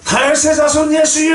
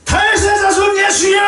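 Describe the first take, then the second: First: It is called out at normal loudness. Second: It is shouted more loudly.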